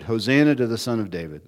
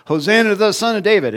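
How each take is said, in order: First: Said in the usual way. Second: High, fast excited cry; children shouting praise to Jesus, high and fast; children cheering. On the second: Retold or imitated. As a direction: cheer it out like a thrilled child, much higher. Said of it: "they go".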